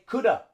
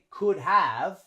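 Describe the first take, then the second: First: Have shrinks to a short vowel joined on. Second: Have is pronounced fully as a separate word. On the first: The speaker calls it right. "We say coulda" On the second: The speaker calls it wrong. "we don't say could have"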